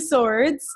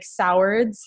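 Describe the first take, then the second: First: The name is said with one syllable. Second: The name is said with two syllables. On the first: The speaker calls it right. "but it's actually Swords" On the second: The speaker calls it wrong. "you'll probably pronounce it like Sowards. That's what everybody does"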